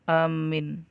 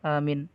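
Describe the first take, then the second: First: The m sound is doubled and held. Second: The first vowel is kept short. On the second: "dengan qasar"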